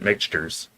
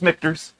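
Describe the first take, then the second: First: The middle sounds like 'ks', as in mixtures. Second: The middle sounds like 'kt', with a clear t. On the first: This is how most people say the name. The speaker calls it wrong. "everybody since then has pronounced it Mixtures" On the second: This is the name as it was made. The speaker calls it right. "it's Michter's"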